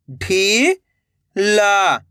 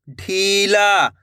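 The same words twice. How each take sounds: First: "ढीला" split into two long syllables. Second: Said in the usual way. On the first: Shown as a demonstration. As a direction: draw out ढी, pause, then ला in "ढीला". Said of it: "एक एक अक्षर का उच्चारण". ("ढीला" को तोड़कर, ढी... ला) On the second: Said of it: "तो मिलके बन जाएगा".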